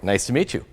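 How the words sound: It is said with lively, bubbly enthusiasm. The speaker is excited to connect. "that parrot enthusiasm"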